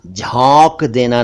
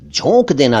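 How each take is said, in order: First: झोंक with open "au" vowel; झोंक with "aw" in place of "oh"; mispronounced झोंक. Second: झोंक with rounded "o"; pure "oh" vowel in झोंक; correct झोंक. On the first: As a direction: say झोंक wrongly as "jhaunk". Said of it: "झोंक देना नहीं". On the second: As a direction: say झोंक as "jhonk". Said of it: "झोंक देना सही है". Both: Shown as a demonstration.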